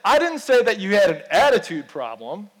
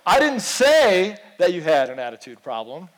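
First: The stress is on the word attitude. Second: The stress is on the word say.

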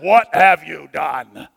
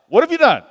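First: It is said in a growling demonic voice. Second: It is said in a normal voice.

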